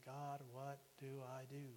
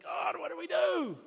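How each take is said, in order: First: Tearful plea. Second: High, loud, slow cry to the heavens; desperate shout. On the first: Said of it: "crying and crying to God". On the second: Up at midnight, yelling at God for an answer, desperate shout. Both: Retold or imitated.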